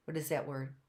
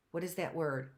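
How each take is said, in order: Both takes have the same delivery.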